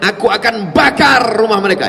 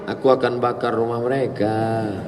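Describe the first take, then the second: First: It is said in an angry tone. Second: It is said in a calm tone.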